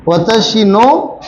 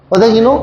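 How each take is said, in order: First: Slow drawn-out echo. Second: Said in the usual way. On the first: Shown as a demonstration. Teacher echoing a student's answer, slow and drawn out. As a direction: stretch out वतशी नो slowly, as if questioning it. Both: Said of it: "वतशी नो किसने कहा?".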